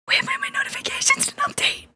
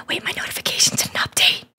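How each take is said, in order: First: Much higher, voiced yell breaking the whisper; sudden yell. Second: Whispered, unvoiced, close to the mic; ASMR whisper. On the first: Real, not acted. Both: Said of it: "I'm sorry for yelling".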